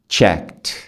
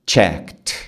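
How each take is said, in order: The two takes are said the same way.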